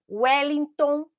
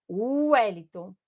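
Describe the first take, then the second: First: Said in the usual way. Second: "Wellington" begun with a clear U sound, slow; W read as U. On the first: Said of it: "que é o W, que tem som de U". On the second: Shown as a demonstration. Teacher showing the class that W sounds like U, slow and clear. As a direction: say "Wellington" as "Uellington", slowly. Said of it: "que tem som de U".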